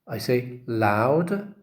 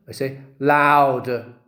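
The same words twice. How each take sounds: First: Said in the usual way. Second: Louder, slow and deliberate; loud teaching demo. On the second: Shown as a demonstration. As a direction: demonstrate loudness on purpose. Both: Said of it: "now what do I say".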